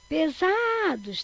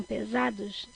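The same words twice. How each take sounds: First: Pesados called out, ZA long and high; stress on ZA. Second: Said in the usual way. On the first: Shown as a demonstration. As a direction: stretch and lift the ZA in "Pesados". (pesados com o ZA longo e agudo) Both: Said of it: "também paroxítona".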